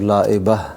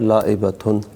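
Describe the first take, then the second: First: The name ends with an open -a vowel. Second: The name ends with a -tun syllable. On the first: This is the form used when stopping on the word. "वक़फ़ करते हैं तो लाइबा" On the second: This is the full form of the word. "अरबी में तो है लाइबतुन"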